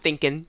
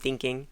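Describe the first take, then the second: First: The word ends in a plain n sound. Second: The word ends in a full ng sound. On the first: "we cut the G's off the end of our gerunds" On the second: "instead of"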